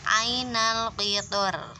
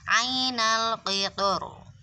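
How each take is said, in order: First: The r is light, with spread lips. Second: The r is heavy, with rounded lips. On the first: "Atau boleh juga dengan tipis ... Itu kalau tipis ya, dengan meringis" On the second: "boleh membacanya dengan tebal ... Oronya dengan mencucu"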